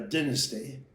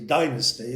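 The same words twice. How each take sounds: First: It is said in a British accent. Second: It is said in an American accent.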